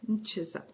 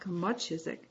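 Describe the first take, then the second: First: The m runs straight into ch, no vowel. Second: A u vowel sits between m and ch. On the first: The speaker calls it right. "just mchisak" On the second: The speaker calls it wrong. "Not mitchisak, muchisak"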